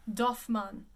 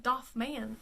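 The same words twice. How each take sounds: First: "Doffman" as doff-MAN, two syllables; correct French. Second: "Doffman" as doff-MAY-an, extra syllable; wrong pronunciation. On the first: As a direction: say "Doffman" with a plain open A ending. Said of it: "It is". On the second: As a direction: misread "Doffman" with a long AY in the ending. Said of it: "It is not how you say it". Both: Shown as a demonstration.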